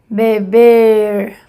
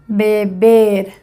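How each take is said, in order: Both takes have the same delivery.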